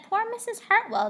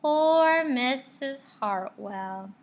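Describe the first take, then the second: First: High, louder mock-sad; higher, louder mock sadness; mock pity. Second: Slow, drawn-out sad sigh; slow, louder mock-sad kids; said sadly. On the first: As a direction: pity her theatrically. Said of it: "It said". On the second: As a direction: pity her, slowly. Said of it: "they all said sadly". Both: A narrator's reading.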